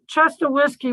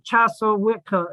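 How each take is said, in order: First: The name sounds like the words Chester Whiskey. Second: The name sounds like Chassa Witka. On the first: This is how locals jokingly call the spring. "I Chester Whiskey was actually" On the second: This is the spring's real name. "was actually Chassa Witka"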